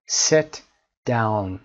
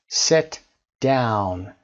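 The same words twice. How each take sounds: The two takes are said the same way.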